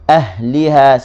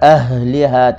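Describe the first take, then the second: First: The h is said with only slight friction. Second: The h is said with heavy breathy friction. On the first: The speaker calls it right. "Ahliha sikit tu sajalah" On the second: The speaker calls it wrong. "jangan baca ahliha, tak boleh"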